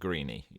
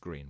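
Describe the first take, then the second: First: The name ends with an extra vowel sound. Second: The name ends without any extra vowel sound. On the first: The speaker calls it wrong. "Although it's got an E on the end, uh, it's not going to be Greeny" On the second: The speaker calls it right. "I know that. It's Greene"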